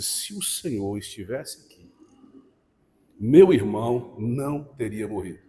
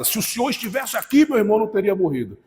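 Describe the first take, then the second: First: It sounds like a sad, mournful lament. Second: It sounds like a demanding reproach.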